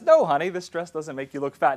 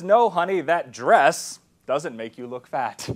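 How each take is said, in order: First: It is said evenly, with no special stress on 'dress'. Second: It is said with a heavy stress on 'dress'.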